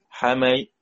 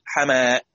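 First: The final hamza is softened toward a y sound. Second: The final hamza becomes a long a sound. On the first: "تسهيل بين بين مع جزء من الكسرة" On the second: "صارت همزة ساكنة وقبلها مفتوح يبقى تبدل"

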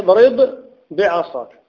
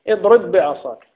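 First: The two b sounds are pronounced separately. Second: The two b sounds merge into one doubled b. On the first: This is the underlying original form. "هي أصلها اضرب بعصاك" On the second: This is the easier form actually used in speech. "لكن يدغمون الباء في الباء لأنها أسهل"

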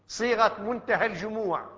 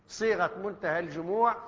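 The two takes are said the same way.

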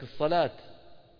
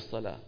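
First: The word ends in a clear t sound. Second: The word ends in a soft h sound. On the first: This is how people of Riyadh say it. "أهل الرياض اسمعوا مثلا بيقولك" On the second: This is how people of Riyadh do not say it. "ما بيقولوا"

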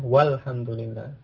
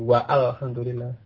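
First: The 'w' runs straight into the L sound. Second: An extra 'a' vowel is sounded before the L. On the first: The speaker calls it right. "Seperti ini ya, walhamdulillah. Jadi tidak diucapkan, langsung ke lamnya" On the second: The speaker calls it wrong. "Aneh kan gitu"

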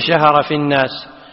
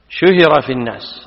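First: The verb starts with an a vowel. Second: The verb starts with a u vowel. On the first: The speaker calls it wrong. "ما تقول" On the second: The speaker calls it right. "هذا هو الباب"

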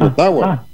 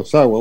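First: It is said with plain Spanish sounds throughout. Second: It is said with English sounds, a th-like t. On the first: "pero nosotros podemos decir Ottawa" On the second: "Inglés como TH dice Ottawa"

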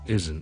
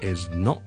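First: The vowel of 'not' drops, giving 'isn't'. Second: Both words are said in full, 'is not'. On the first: "咁我哋读得好懒嘅时候咧就系isn't isn't" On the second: "Not 愣埋咧就系is not is not"

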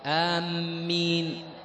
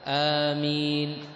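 First: The first vowel is short, with a doubled m. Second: The first vowel is long, with a single m. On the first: The speaker calls it wrong. "القصر مع التشديد" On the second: The speaker calls it right. "وإنما بمقدار حركتين"

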